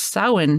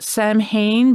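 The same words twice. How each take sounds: First: It is said with the Gaelic pronunciation. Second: It is said the way English spelling suggests. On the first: The speaker calls it right. "it's pronounced Samhain because it's uh, it's Gaelic" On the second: The speaker calls it wrong. "a lot of people pronounce it Samhain"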